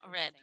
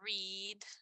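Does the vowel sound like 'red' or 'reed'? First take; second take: red; reed. First: The vowel is a short e sound. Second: The vowel is a long ee sound. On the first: The action happened in the past. "si es en el pasado, es red y como si y suena como el color rojo" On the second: The action happens in the present. "si es en el presente, es read con una I larga"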